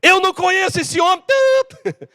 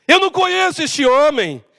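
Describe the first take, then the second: First: High shouted denial ending in bleep; acted cursing outburst; losing it, swearing. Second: Raised-pitch acted denial; firmly disown the man; emphatic denial, still controlled. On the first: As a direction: snap and deny him furiously. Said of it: "ele saiu do sério". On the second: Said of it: "Ele negou conhecer Jesus".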